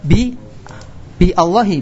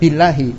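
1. Ada hamzah terpisah yang memulai 'Allahi'. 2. 'Bi' langsung tersambung ke 'llahi' tanpa berhenti. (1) "Bukan bi Allahi, bukan" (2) "Billahi kan?"

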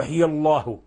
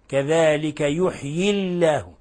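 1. لام الجلالة مفخمة وثقيلة. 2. لام الجلالة مرققة وخفيفة. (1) "ما يجوز نقول يحيي الله" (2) "نرقق ولا نفخم"

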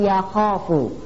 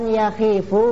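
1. Vokal setelah kh adalah a panjang. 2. Vokal setelah kh adalah i. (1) "tapi yakhofu" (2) "bukan yakhifu"

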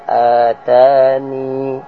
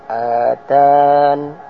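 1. Kata ini berakhir dengan vokal 'i' panjang. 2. Kata ini berakhir dengan bunyi 'n'. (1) "Pertama atani" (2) "yang kedua atan"

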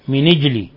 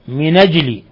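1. النون مكسورة، بلا همزة. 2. النون مفتوحة، بلا همزة. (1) "بكسر النون مع النقل" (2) "بالنقل مع فتح النون"

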